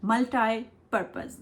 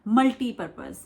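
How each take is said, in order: First: मल्टीपर्पज with "tie" in the middle; American pronunciation. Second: मल्टीपर्पज with "tee" in the middle; Indian pronunciation. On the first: Teacher demonstrating American accent, मल्टीपर्पज said "MUL-tie-purpose". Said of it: "American accent में". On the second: Teacher showing Indian usage, मल्टीपर्पज said "MUL-tee-purpose". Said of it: "हम लोग ऐसे बोलते हैं ना". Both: Shown as a demonstration.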